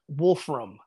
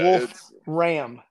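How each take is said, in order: First: It runs together with no pause. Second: It has a slight pause in the middle. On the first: The speaker calls it wrong. "It's not Wolfram" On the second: The speaker calls it right. "Two words with a slight pause in between"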